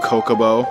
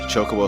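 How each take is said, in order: First: The word starts with a k sound. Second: The word starts with a ch sound. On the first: "I thought Chocobo sounded like Kokobo" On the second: "the C H could be a ch sound"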